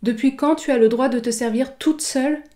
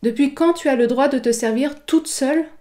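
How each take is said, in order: No difference in how they are said.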